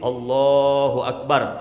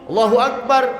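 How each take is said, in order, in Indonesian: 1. Diucapkan dengan panjang yang sedang. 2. Diucapkan sangat cepat. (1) "cukup tuh. Kurang dari empat belas harokat" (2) "Cepet banget takbirnya"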